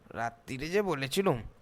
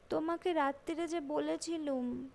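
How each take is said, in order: First: It is said in a mocking, mimicking voice. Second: It is said plainly in the daughter's voice.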